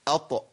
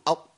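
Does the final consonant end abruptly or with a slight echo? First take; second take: echo; abrupt. First: The final consonant is released with a slight echo. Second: The final consonant stops abruptly with no release. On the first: The letter is clearly heard. The speaker calls it right. "لازم اط، يبقى قلقل" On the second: The letter is not clearly heard. The speaker calls it wrong. "اما اقول اط، فين الطاء؟"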